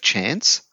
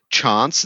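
First: It is said the non-South Australian way. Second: It is said the South Australian way. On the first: This is how people elsewhere say it. "instead of chance" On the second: This is how people in that region say it. "they say chance"

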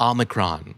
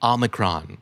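First: It is said with an American accent. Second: It is said with an American accent.

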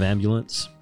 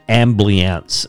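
First: The b is followed by a 'u' vowel. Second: The b is followed by 'lee', with no 'u'. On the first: This is the usual pronunciation. The speaker calls it right. "instead of ambulance" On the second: This is how a family member mispronounces it. The speaker calls it wrong. "My father pronounces it ambliance"

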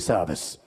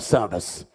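First: The word is shouted at a loud level. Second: The word is shouted even more loudly.

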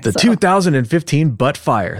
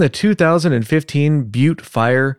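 First: Butte is said as one syllable, 'butt'. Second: Butte is said as one syllable, 'byoot'. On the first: The speaker calls it wrong. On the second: The speaker calls it right.

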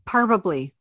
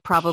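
First: The word begins with the sound 'par'. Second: The word begins with the sound 'pro'. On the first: The speaker calls it wrong. "Parbably instead of probably" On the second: The speaker calls it right. "instead of probably"

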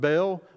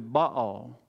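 First: The word sounds like 'bale'. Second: The word does not sound like 'bale'. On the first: This is how most people say it. "Most people pronounce it Baal, like a bale of hay" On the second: This is the original pronunciation. "its original pronunciation was actually Baal"

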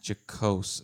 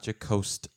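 First: The word ends with a plain s sound. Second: The word ends with an added t sound. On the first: The speaker calls it right. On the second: The speaker calls it wrong. "not jocost with a T at the end"

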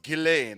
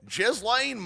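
First: The name is said in its original, non-American way. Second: The name is said with an Americanized pronunciation. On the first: This is how the name is properly pronounced. "I know the pronunciation of her name is like Ghislaine" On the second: The speaker refuses the proper pronunciation on purpose. "I speak American, dude. I'm an American boy, and I'm going to speak Marken"

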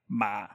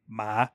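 First: The pitch is very low, like a grumble. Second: The pitch starts low and rises. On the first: "and then just a low, like grumble tone" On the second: "and then a low rising"

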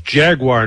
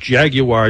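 First: The word is said with an American pronunciation. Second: The word is said with a British pronunciation. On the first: The speaker calls it right. "it's Jaguar" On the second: The speaker calls it wrong. "not Jaguar, you British dolt"

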